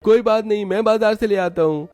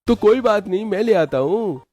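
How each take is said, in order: First: Put-on high boyish voice, eager to help; young brother-in-law. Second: Put-on high boyish voice, insisting; young brother-in-law. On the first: Yash offers to fetch the vegetables, high boyish voice. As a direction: offer like a keen young lad. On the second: Yash insists on helping his sister-in-law, high boyish voice. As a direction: press the offer like a keen boy.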